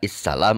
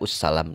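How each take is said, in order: First: The word begins with an i vowel. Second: The word begins with an u vowel. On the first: "Tidak issalam" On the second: "tidak ussalam"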